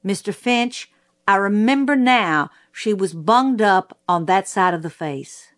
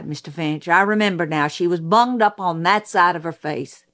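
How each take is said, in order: First: Lightly voiced court clerk repeating the record; measured recital of someone else's words; court reporter reading back. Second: Sheriff's testimony, conversational and running on; lightly voiced witness recalling an injury; a hint of a folksy sheriff addressing counsel; sheriff remembering. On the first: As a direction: recite testimony as a read-back, dropping away at the end. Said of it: "and the court reporter said". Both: A narrator's reading.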